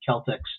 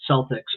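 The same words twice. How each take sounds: First: The word begins with a hard K sound. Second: The word begins with a soft S sound. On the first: The speaker calls it right. "the hard C" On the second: The speaker calls it wrong. "they mispronounce it"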